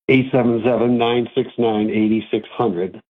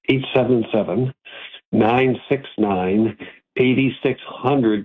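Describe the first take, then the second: First: The number is said fast. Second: The number is said slowly.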